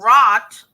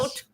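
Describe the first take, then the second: First: The vowel is a short open o. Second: The vowel is a long oo sound. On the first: "You don't say" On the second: "You don't say"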